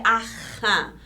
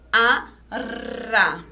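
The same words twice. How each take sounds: First: "arra" with a throaty H-like R; strong R. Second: "arra" split, with a rolled tongue-tip R; weak trembling R. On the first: Teacher contrasting two Rs together with one alone, strong R. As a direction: scrape the double R in the throat, like "aha". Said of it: "Pra ele ficar forte". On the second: Teacher showing the R when it is alone, trembling R. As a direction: say "a", then trill "rra". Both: Shown as a demonstration.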